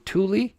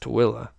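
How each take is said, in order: First: The name is said with two syllables. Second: The name is said with three syllables. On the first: The speaker calls it wrong. "most people when they first say it, they go" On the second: The speaker calls it right. "but it's"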